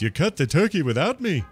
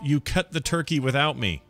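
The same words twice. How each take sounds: First: It is said in an imitated character's voice. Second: It is read in the speaker's ordinary voice. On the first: "I'll do it in the voice"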